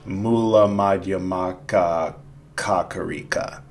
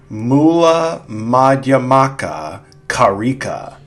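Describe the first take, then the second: First: The last word has an extra ka syllable. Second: The last word has no extra ka syllable. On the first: The speaker calls it wrong. "not ... as I added an extra ka in there" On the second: The speaker calls it right. "I should have said"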